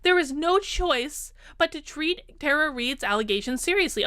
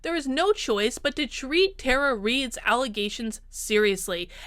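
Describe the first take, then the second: First: It is read in a mocking, put-on voice. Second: It is read in a plain, serious voice. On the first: The statement is being ridiculed. The speaker calls it wrong. "I shouldn't do that in mocky voice" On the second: The statement is meant sincerely. The speaker calls it right. "She's being serious there"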